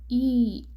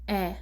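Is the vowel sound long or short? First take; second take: long; short. First: The vowel is the long E sound. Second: The vowel is the short E sound. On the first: "So it's a long E" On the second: "the short E, you pronounce it as E"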